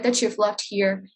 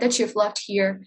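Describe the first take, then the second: First: The t and y blend into a ch sound. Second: The same.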